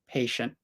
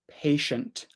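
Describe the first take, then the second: First: The T sound is made softly and weakly. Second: The T sound is made clearly and strongly. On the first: "I might not make the T sound so strong" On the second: "I'm pronouncing it really clearly. I'm making the t"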